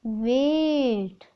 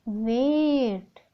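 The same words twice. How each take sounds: First: वेट stretched out very slowly; model pronunciation. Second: वेट said slowly again; answer repeated. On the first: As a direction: hold out वेट. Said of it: "what is the pronounce a word". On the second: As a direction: confirm वेट. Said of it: "क्या होगा". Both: Shown as a demonstration.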